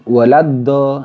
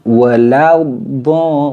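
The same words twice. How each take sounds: First: The dad sound is short and immediate. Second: The dad sound is drawn out longer. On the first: The speaker calls it wrong. "tidak boleh langsung" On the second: The speaker calls it right. "diistitolahkan terlebih dahulu"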